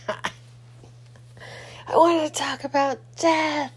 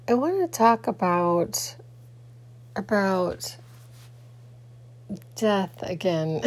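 First: Slow, high ominous drawl; a hammed-up horror-movie creep; spooky voice. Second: Said in the usual way. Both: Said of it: "I'm just kidding".

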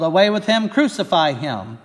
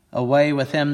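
First: Higher, louder yell on "Away with him". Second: Mild yell. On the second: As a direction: call out the rejection. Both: Acted. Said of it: "they yelled".

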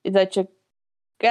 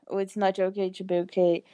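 First: "It's Not Okay" said very slowly, each word drawn apart; slow it right down so it lands; slow, spelled-out title. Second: Said in the usual way. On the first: Shown as a demonstration. ("It's Not Okay" bem devagar, palavra por palavra) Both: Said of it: "Ah, você entendeu?".

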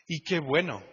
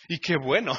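First: Chuckling through Y qué bueno; amused repeat of Y qué bueno; with a laugh. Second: Said in the usual way. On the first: Real, not acted. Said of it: "repeat with a laugh". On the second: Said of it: "Y qué bueno (repeated)".

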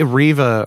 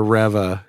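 First: "Reva" said as REE-vuh; long-E pronunciation. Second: "Reva" said as REV-uh; short-E pronunciation. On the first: Host unsure of the character's name, "Reva" as REE-vuh. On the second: Host offering the other option, "Reva" as REV-uh. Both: Real, not acted. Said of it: "however it's pronounced".

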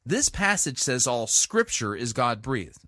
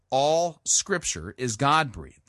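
First: Said in the usual way. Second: "All" stressed, said slowly and deliberately. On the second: Shown as a demonstration. Preacher stressing "All" to his listeners, slow and emphatic. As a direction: lean hard on "All" to make the point. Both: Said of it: "emphasis on the word all".

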